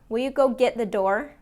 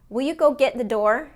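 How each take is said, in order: No difference in how they are said.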